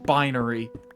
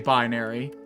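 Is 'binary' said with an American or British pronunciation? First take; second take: British; American. First: It is said with a British pronunciation. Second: It is said with an American pronunciation. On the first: "which is you know the the British pronunciation. Yeah, like winery" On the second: "I used to say binary, like a good, you know, freedom-blooded American"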